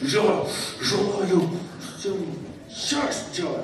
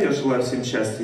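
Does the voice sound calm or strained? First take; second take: strained; calm. First: It is said tensely, with forced effort. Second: It is said calmly and deeply, without strain. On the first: The wish is forced out under tension. The speaker calls it wrong. "я не так же говорю" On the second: The wish comes from relaxed love. The speaker calls it right. "Я спокойно же, да? То есть спокойно говорю, глубоко"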